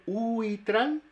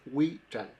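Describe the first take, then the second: First: "uitral" with U and I as separate full vowels, slow and higher; split vowels, wrong. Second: "huichal" opening on a W glide, "wi-chal", lower; glide onto strong I. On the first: Linguist showing learners the mistake, split vowels. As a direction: stretch "uitral" into "oo-ee-tral". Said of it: "en vez de ser uitral". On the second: Linguist showing the correct word, glide onto strong I. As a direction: say "huichal" with U and I in one syllable. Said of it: "Como la I es fuerte". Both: Shown as a demonstration.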